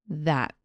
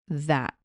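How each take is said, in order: Both takes have the same delivery.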